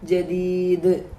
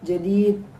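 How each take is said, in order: First: The final d ends with an echoing bounce. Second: The final d stops without an echo. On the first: The speaker calls it right. "അത് മുഴക്കി നമ്മൾ നിർത്തണം" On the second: The speaker calls it wrong. "എന്ന് പറയാതെ"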